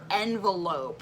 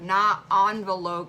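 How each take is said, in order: First: It begins with an 'en' sound. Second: It begins with an 'on' sound. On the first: The speaker calls it right. "It's either, neither, envelope" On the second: The speaker calls it wrong. "I hate when people say envelope because it doesn't start with an O"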